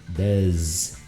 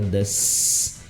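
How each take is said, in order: First: The word ends with a buzzing z sound. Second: The word ends with a hissing s sound. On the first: The speaker calls it right. "é som de Z" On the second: The speaker calls it wrong. "fica aquele som da cobra"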